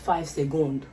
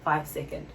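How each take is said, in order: First: It uses a French-style pronunciation of seconds. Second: It uses the English pronunciation of seconds. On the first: The speaker calls it wrong. "Not five secondes" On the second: The speaker calls it right. "Five seconds, ok?"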